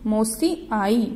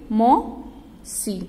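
First: Said in the usual way. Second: "मौसी" drawn out very slowly; slow sounded-out word. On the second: Shown as a demonstration. Teacher reading "मौसी" in a rhyme to children, slowly stretched. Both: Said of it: "Gauri की".

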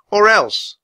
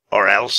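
First: ELSE as a high, loud threat; high, loud ultimatum; defiant girl. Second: Put-on raspy king unimpressed by children; mocking villain. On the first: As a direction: warn the villain in a girl's high voice. Annie threatens the king. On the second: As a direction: throw the threat back scornfully. Raven King echoes the threat mockingly. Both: A narrator's reading.

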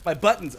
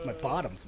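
First: Said in the usual way. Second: Buttons slurred into bottoms with an ah sound; slip to bottoms. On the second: Shown as a demonstration. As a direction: blurt bottoms instead of buttons, softer. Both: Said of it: "What the hell am I talking about?".

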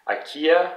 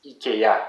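First: Said in the usual way. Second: "ikea" as "ee-kay-AH", final syllable stressed; French pronunciation. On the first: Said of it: "for the company ikea". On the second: Shown as a demonstration. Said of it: "in French, it's ikea".

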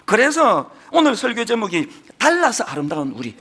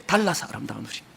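First: Said in the usual way. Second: "달라서 아름다운 우리"를 조용히 낮게 되뇌듯; 제목을 속삭이듯 여운 있게 반복; quiet echo. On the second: Real, not acted. Sermon title repeated as echo. (제목을 조용히 되뇌며)

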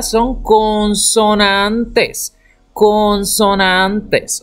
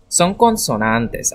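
First: "Son consonantes" spelled out slowly, every syllable drawn long; deliberate classroom drawl; slow, drawn-out teaching. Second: Said in the usual way. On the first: Shown as a demonstration. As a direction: stretch "consonantes" out slowly for the children. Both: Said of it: "todas estas que usted ve en blanco".

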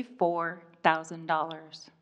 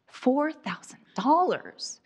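First: Said in the usual way. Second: Incredulous echo, pitched higher; shocked disbelief. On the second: Acted. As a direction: repeat the price in stunned, high-pitched disbelief. Shocked repeat of mechanic's price.

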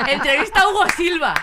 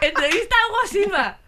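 First: Loud, high headline announcement; excited headline. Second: Even higher, loud announcer voice; bigger headline. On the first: Proudly announcing her fake school paper scoop, loud and high. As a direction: trumpet it like a scoop. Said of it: "O sea". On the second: Announcing the fake interview headline again, louder and higher. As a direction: shout the scoop like a tabloid cover. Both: Retold or imitated.

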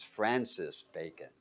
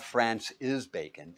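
First: "Francis Bacon" with Francis as one word, slow and lower; correct pronunciation. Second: "France is Bacon" said as three words, France then is, slow; mock the mistake as "France is Bacon", separated and slow; wrong pronunciation. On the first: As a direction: say "Francis Bacon" properly, Francis run together. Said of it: "it's Francis Bacon". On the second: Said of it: "Not France is Bacon". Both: Shown as a demonstration.

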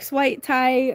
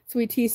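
First: Sweet tea drawled slowly in a Southern accent, sweet stretched long like swaaait; slow Southern drawl on sweet tea, vowel pulled wide. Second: Said in the usual way. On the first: Shown as a demonstration. Streamer showing chat how Southerners say sweet tea, Southern drawl. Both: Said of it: "you gotta say it with the tongue".

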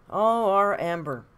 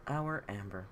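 First: Mock fond. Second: Said in the usual way. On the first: Mock fond sigh about Amber.

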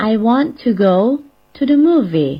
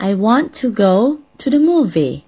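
First: I want to go to the movie repeated slowly and clearly; teacher repeating the model sentence; model English sentence. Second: I want to go to the movie said slowly, clearly, in English; teacher demonstrating an English sentence; model English sentence. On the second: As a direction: read the sentence out as a careful model for learners. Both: Shown as a demonstration. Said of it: "เราก็จะสามารถพูดได้ว่า".

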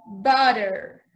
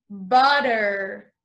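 No difference in how they are said.

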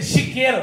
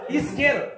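First: "chiqueiro", louder, opening with sh; "chiqueiro" with sh onset. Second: "Isqueiro", clear vowel then hissed S; "Isqueiro" with s onset. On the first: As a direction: say "chiqueiro" starting on a clear SH. Contrasts misheard word with isqueiro. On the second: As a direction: say "Isqueiro" as ees-KAY-ro. Corrects chiqueiro to isqueiro. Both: Shown as a demonstration.

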